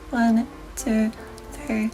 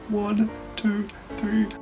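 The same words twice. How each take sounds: First: It uses a small, bright resonance space. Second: It uses a large, dark resonance space.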